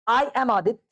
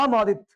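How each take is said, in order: First: 'I am' is said as two full words. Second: 'I am' is reduced to one syllable, 'aam'. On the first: This is how a beginner says it. "शुरुआत है" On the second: This is how a fluent, habitual speaker says it. "लड़का अंग्रेज हो गया"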